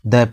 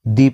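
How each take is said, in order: First: The word ends in a short 'uh' vowel. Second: The word ends in a long 'ee' vowel. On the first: The next word begins with a consonant sound. "तब हम द को द पढ़ेंगे" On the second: The next word begins with a vowel sound. "तब हम द को दी पढ़ेंगे"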